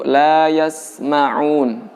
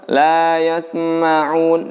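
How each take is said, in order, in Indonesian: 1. Huruf s ditahan dulu sebelum lanjut. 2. Ada vokal tambahan yang muncul setelah huruf s. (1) "huruf sin yang bersukun ditahan dulu" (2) "ada suara sem ya"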